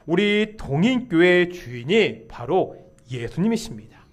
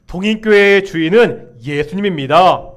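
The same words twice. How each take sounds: First: Said in the usual way. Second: Loud, firm proclamation; confession of faith. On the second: Real, not acted. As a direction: declare it strongly for all to repeat. (힘차게 선포하는 신앙 고백) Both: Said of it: "다시 한번 고백하겠습니다".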